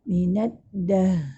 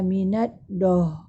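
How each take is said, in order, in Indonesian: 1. Bunyi d itu tipis dan ringan. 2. Bunyi d itu berat dan tebal. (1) "Pastikan kita punya sebutan tu uh, adalah nipis" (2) "Jangan minat doh. ... dal kita uh, memang akan jadi tebal lah"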